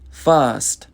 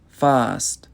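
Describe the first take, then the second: No difference in how they are said.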